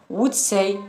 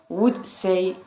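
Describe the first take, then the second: Both takes have the same delivery.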